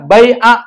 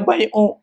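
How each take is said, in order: First: The word ends in an a vowel. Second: The word ends in a u vowel. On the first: The speaker calls it right. "dibacanya bai'a" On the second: The speaker calls it wrong. "nggak boleh bai'u"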